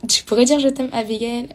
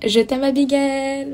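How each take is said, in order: First: Said in the usual way. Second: Sweet on request. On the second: Shown as a demonstration.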